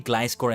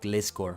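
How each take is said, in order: First: The first syllable has the vowel of glide. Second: The first syllable has the vowel of gliss. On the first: The speaker calls it right. "it's meant to be Gliscor" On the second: The speaker calls it wrong. "and not Gliscor"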